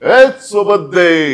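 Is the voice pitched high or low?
low. It is spoken at a lower pitch.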